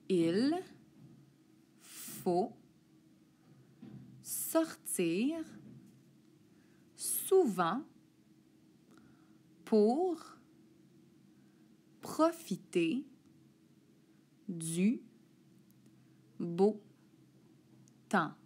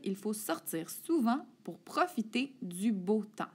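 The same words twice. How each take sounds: First: The sentence is read at a slower pace. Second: The sentence is read at a quicker pace.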